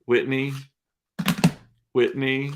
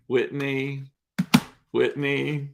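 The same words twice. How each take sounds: The two takes are said the same way.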